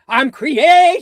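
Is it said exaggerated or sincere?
exaggerated. It is said wildly, with exaggeration.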